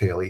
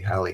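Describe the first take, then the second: First: The first vowel sounds like in 'hay'. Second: The first vowel sounds like in 'hat'. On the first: The comet's name is being mispronounced. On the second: The comet's name is said as intended.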